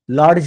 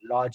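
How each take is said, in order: First: A d sound is pronounced before the ending. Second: No separate d sound is pronounced before the ending. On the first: The speaker calls it wrong. "नाही म्हणत" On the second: The speaker calls it right. "आपण लॉज म्हणतो"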